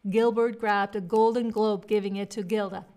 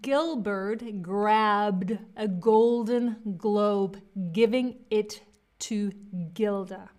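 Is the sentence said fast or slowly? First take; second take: fast; slowly. First: The sentence is said fast. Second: The sentence is said slowly. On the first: "And now I'm going to speed it up" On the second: "Okay, I'm going to do it slower"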